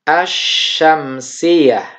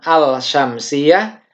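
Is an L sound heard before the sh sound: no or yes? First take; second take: no; yes. First: The L merges into a doubled sh sound. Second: The L is pronounced clearly before the sh. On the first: The speaker calls it right. "Jadi dibacanya asyamsiyah" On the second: The speaker calls it wrong. "bukan al-syamsiyah"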